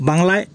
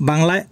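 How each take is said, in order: The two takes are said the same way.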